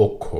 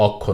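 First: অক্ষ said "okkho", opening on o; correct o-like vowel. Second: অক্ষ said "awkkho", open aw first; mistaken open vowel. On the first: Teacher correcting the error, "okkho". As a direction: begin অক্ষ with a rounded o. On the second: Teacher showing the error to avoid, "awkkho". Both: Shown as a demonstration. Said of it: "অক্ষ না".

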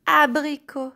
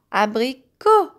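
First: Said in the usual way. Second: "abricot" with the final co set apart; stress on CO. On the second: Shown as a demonstration. Teacher pointing out co to children, "abricot" ending on stressed CO. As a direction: split off and lift the last syllable of "abricot". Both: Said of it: "nous avons co".

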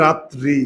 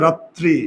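First: রাত্রি with a single t, "raa-tri"; common mispronunciation. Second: রাত্রি with a doubled t, "raat-tri"; correct pronunciation. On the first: Teacher shows the common mistake, রাত্রি as undoubled "raa-tri". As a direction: say রাত্রি without doubling the t. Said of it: "আমরা উচ্চারণ করি ভুল". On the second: Teacher gives the correct form, রাত্রি as "raat-tri". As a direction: hold the t in রাত্রি, then release "tri". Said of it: "শুদ্ধ উচ্চারণ হচ্ছে". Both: Shown as a demonstration.

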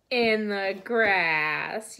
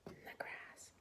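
First: "In the grass" drawn out slowly and loud; slow affirmation. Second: "In the grass" whispered softly. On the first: Teacher confirms the horse lives in the grass, slow and loud. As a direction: stretch "In the grass" slowly and clearly. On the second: Teacher echoes the answer to the children, whispering. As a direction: breathe "In the grass" as a secret. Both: Shown as a demonstration.

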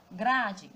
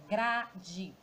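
First: Said in the usual way. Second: "grade" split in two, gra-de; sílaba por sílaba. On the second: Shown as a demonstration. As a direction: leave a gap inside "grade", each syllable distinct. ("grade" separado em sílabas: gra-de) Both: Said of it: "Já separando a sílaba".

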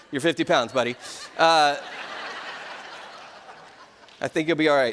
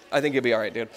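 First: Chuckling through the reassurance to his son; laughing. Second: Said in the usual way. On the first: Real, not acted. Father laughing to his young son about steroids. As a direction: laugh it out as you tell him he's fine.

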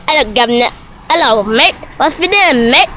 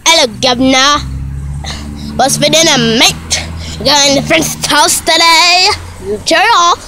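First: Playful mock-British greeting voice; lightly hammed-up British accent; put-on British accent. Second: Hammed-up mock-British voice; put-on British accent. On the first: Vlogger showing off an accent, mock British. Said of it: "Hey, you wanna see my accent?". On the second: Vlogger redoing the accent demo, mock British. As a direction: do a cheery fake British accent. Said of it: "this about to go like this". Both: Shown as a demonstration.

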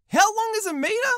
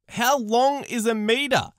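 First: "How long is a meter?" high, with an incredulous rise on "meter"; outraged disbelief. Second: "How long is a meter?" said slowly, flat and stunned; slow disbelief. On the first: Pretend. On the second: Shown as a demonstration. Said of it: "how long's a meter?".

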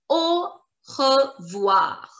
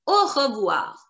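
First: Slow Au, re, voir with gaps; syllable by syllable. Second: Said in the usual way. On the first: Shown as a demonstration. Teacher introduces bye-bye in French, Au revoir slowly split. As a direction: break Au revoir into slow separate sounds. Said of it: "and we pronounce it".

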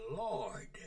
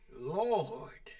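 First: Hushed, reverent Lord; whispered Lord. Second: Said in the usual way. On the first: Shown as a demonstration. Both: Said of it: "Master, Lord".

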